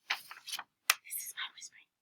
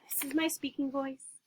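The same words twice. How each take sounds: First: Slow, soft whisper; hushed demonstration whisper. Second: Said in the usual way. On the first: Shown as a demonstration. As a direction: whisper it so nobody is disturbed. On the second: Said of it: "We have speaking voice".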